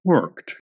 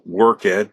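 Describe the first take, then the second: First: The ending merges into one syllable. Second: The ending is a separate, fully pronounced syllable. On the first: This is the later, softened form. "these pronunciations soften" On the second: This is the older form of the word. "the ed was fully pronounced"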